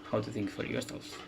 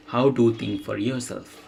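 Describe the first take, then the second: First: Reading to oneself. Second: Full-volume, clearly announced title; reading a title aloud. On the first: Streamer checking notes for the last reading, quietly to self. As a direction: softly check the title in the notes. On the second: Streamer announcing the last essay title, read out clearly. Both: Real, not acted.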